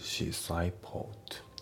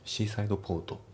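First: The final d of seaside is almost dropped. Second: The final d of seaside is clearly pronounced. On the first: The speaker calls it right. "ほとんど発音されてない感じのリダクション" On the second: The speaker calls it wrong. "じゃなくて"

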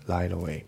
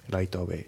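No difference in how they are said.

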